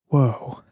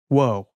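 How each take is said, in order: First: It is said slowly and drawn out. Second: It is said at normal speed.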